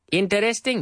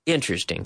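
First: "Interesting" with the stress on "res", in-te-RES-ting; "Interesting" said wrongly as in-te-RES-ting, four syllables. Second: "Interesting." said as INT-res-ting, stress on the first syllable; "Interesting." said correctly as INT-res-ting, three syllables. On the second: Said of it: "Three syllables". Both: Shown as a demonstration.

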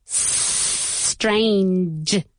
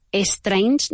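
First: "Strange" starting straight on a long hissed s; clean initial S. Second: "Strange" mispronounced as "estrange", with an e before the s; wrong initial E. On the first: Teacher correcting the mistake, "Strange" with a long initial s. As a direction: hold the s before "Strange", no vowel first. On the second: Teacher showing the learners' mistake, "Strange" said as "estrange". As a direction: add a rising Spanish e before "Strange". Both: Shown as a demonstration.

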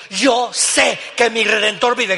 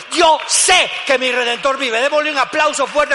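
First: Said in the usual way. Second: Shouted. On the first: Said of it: "diga conmigo". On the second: Shown as a demonstration. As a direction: shout it out to the whole church. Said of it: "Grítelo".

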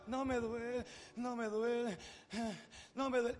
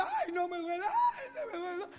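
First: Softer, drowsy repeating of "no me duele"; soft repeated mantra. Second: Put-on higher, whimpering child voice with a laugh; mock crying child. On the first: Retold or imitated. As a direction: lull yourself to sleep with it. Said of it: "Y yo empezaba". (niño que se calma repitiendo bajito) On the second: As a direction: play the child crying from toothache. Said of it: "Y yo". (niño que llora de broma, voz aguda)

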